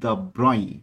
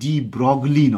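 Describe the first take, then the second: First: It is said "duh Broy", with no g or l. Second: It is said "dee Brog-lee", with g and l. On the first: The speaker calls it right. "এনার উচ্চারণটা লুই দ্য ব্রই" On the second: The speaker calls it wrong. "ওনার নামটা মোটেও ডি ব্রগলি নয়"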